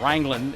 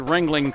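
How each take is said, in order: First: The first syllable sounds like 'rang'. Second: The first syllable sounds like 'ring'. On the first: The speaker calls it right. "is how you're supposed to say it if you're from that part of the country" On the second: The speaker calls it wrong. "I didn't say Ringling correctly"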